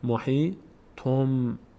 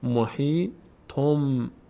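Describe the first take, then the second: The two takes are said the same way.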